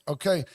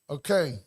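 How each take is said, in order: No difference in how they are said.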